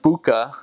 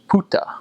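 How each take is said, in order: First: It starts with b and has k. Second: It starts with p and has t. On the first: The speaker calls it wrong. "it looks like book" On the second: The speaker calls it right. "it's actually pronounced puta"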